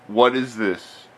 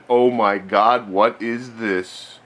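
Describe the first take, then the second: First: Said in the usual way. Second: Slow, drawn-out awe; milk the reveal slowly; mock amazement. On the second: Mock amazement at new arcade.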